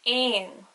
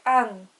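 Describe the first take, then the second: First: "ain" with a long, emphasized "ay" vowel; E with fada. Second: "an" with a short, light vowel; very soft E. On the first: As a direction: stretch the opening vowel of "ain". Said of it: "would be pronounced like". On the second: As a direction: say "an" briefly, no long "ay". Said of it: "The E would be very soft". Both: Shown as a demonstration.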